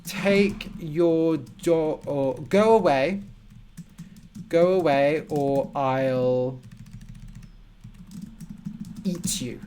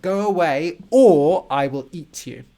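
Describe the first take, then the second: First: Slow threat. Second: Loud, hammed-up monster roar of a threat. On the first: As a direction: warn them off, slowly and deliberately. Teacher gives example of a threat. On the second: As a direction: play the monster scaring someone off. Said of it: "Maybe like a monster". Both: Shown as a demonstration.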